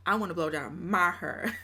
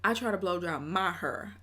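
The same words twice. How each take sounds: First: Put-on a touch of Texas accent on "wanna"; lightly country Texas accent. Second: Lightly mimicked [name] line; a hint of [name]'s phrasing; imitating [name]. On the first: Reworking the clip line in a mild Texas accent. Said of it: "I wanna hear that Texas accent". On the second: Repeating the clip in a light [name] voice. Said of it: "I'll get back to my hair".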